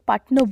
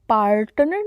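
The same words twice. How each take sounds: First: The R sound is left silent. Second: The R sound is clearly pronounced. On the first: The speaker calls it right. "आर silent होगा दोनों जगह" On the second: The speaker calls it wrong. "पार्टनर नहीं बोलेंगे"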